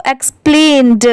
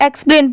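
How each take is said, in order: First: "एक्सप्लेन्ड" with a released d at the end; sounded final D. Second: "एक्सप्लेन" ending on n, without d; no final D. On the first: Teacher showing the ED ending, audible d in "एक्सप्लेन्ड". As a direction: finish "एक्सप्लेन्ड" on an audible duh. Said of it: "हम लोग pronounce करते हैं इसको". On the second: Teacher contrasting the word without ED, "एक्सप्लेन" ending on n. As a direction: stop "एक्सप्लेन" at the n. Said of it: "तो इसको इतने को हम लोग सिर्फ". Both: Shown as a demonstration.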